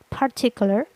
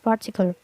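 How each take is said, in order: First: The r sound is pronounced in the word. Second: The r sound is dropped from the word. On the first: "in the rhotic accent" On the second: "with the non-rhotic accent"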